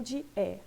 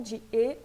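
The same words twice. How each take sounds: First: E said as open French è. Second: E said as closed French é. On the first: Teacher contrasting the two sounds of E, open E. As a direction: drop the jaw on E, as è. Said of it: "Aqui ele tem um som de E". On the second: Teacher contrasting the two sounds of E, closed E. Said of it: "podia ter o som ou de E ou de E". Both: Shown as a demonstration.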